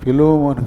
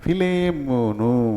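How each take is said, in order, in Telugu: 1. రెండవ అక్షరంలో 'o' అచ్చు ఉంది. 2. రెండవ అక్షరంలో 'e' అచ్చు ఉంది. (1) "ఫిలోమోన్ కాదు" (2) "ఫిలే ఫిలేమోను అంటే దీనికి అర్థం ప్రేమించువాడు"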